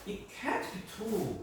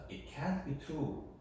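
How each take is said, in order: First: It is said with strong emotional denial. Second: It is said plainly, without emotion.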